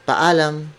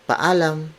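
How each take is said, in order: Both takes have the same delivery.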